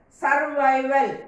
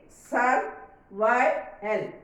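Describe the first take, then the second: First: Said in the usual way. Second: "Survival" very slowly, Sur, vi, val; syllable by syllable. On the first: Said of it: "Can you tell how many syllables in that?". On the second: Shown as a demonstration. Teacher counting three syllables, Survival drawn out part by part. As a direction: break Survival into three slow, separate beats. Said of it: "Three syllables are there".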